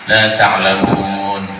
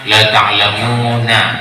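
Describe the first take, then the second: First: The final word ends on the 'n' consonant. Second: The final word ends with an 'a' vowel. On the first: The reading stops at this word. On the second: The reading continues into the next verse.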